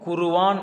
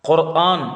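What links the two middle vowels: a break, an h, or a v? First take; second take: v; break. First: A v sound joins the two middle vowels. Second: A clean break separates the two middle vowels. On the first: The speaker calls it wrong. "உச்சரிப்பது தவறு" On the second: The speaker calls it right. "குர்ஆன் என்று தான் உச்சரிக்கணும்"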